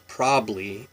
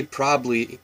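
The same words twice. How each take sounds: First: "probably" squeezed to probly. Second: Said in the usual way. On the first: Shown as a demonstration. Vlogger showing viewers her Washington probly. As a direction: drop the middle syllable of "probably". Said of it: "we say probably". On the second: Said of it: "we don't say probably".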